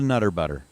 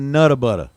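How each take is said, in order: First: The first word ends with an r sound. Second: The first word ends in a plain vowel. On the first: The speaker calls it wrong. "not a nutter butter" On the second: The speaker calls it right. "you got to pronounce it nutta butter"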